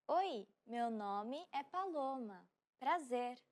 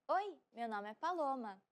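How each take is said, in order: First: Slow, careful Portuguese; slow model repeat. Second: Said in the usual way. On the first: Shown as a demonstration. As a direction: spell it out slowly for learners. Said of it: "repeat of line 108". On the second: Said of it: "slow repeat follows".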